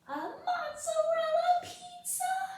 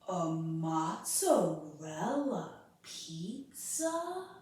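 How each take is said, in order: First: It is said in a very high voice. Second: It is said in a lower voice.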